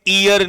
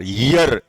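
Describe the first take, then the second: First: The word starts with a long ee vowel. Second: The word starts with a clear y sound. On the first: The speaker calls it wrong. "ये ईयर नहीं होता" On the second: The speaker calls it right. "इसका pronunciation होता है यर"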